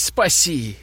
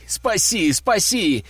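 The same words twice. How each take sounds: First: Said in the usual way. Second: Desperate yell. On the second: A narrator's reading. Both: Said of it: "продолжал орать сын".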